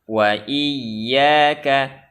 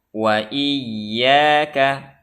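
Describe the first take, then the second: No difference in how they are said.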